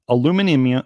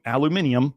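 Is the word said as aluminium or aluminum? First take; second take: aluminum; aluminium. First: It is said as aluminum, with four syllables. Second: It is said as aluminium, with five syllables.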